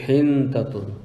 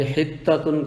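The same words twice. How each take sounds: First: Sung, حنتتن with a held "n" before the t; sung, "hinnn-tatun", the nasal lingered on; inserted nasal hum. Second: Said in the usual way. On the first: Shown as a demonstration. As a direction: add a humming n in the middle of حنتتن. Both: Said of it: "بیچ میں ایک غنہ ڈال دیا".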